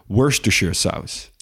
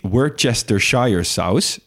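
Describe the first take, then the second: First: The name is said with reduced syllables. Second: Every syllable of the name is said fully. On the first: The speaker calls it right. "het is Worcestershire saus" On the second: The speaker calls it wrong. "het is niet Worcestershire saus"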